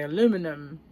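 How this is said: It is said with an American accent. This is how Americans say it. "you guys say aluminum"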